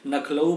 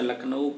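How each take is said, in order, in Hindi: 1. शब्द की शुरुआत n ध्वनि से होती है। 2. शब्द की शुरुआत l ध्वनि से होती है।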